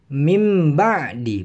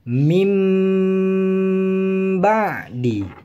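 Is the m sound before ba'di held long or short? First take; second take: short; long. First: The nasal m sound is cut short. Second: The nasal m sound is held for two beats. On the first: The speaker calls it wrong. "tidak langsung mim ba'di, bukan begitu" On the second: The speaker calls it right. "ditahan seukuran dua harokat atau dengung. Mim ba'di, seperti itu"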